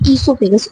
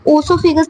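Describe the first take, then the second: First: The word begins with an 'ee' sound. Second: The word begins with an 'oh' sound. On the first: The speaker calls it right. "इसको हम बोलेंगे ईसोफेगस। ओ silent है।" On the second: The speaker calls it wrong. "इसको ओसोफेगस नहीं कहेंगे"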